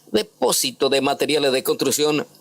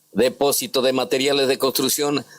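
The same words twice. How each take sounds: The two takes are said the same way.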